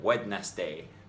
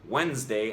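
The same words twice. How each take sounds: First: All syllables are pronounced fully. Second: A syllable is cut or merged. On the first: "instead of" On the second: "we either cut out a syllable or condense two syllables"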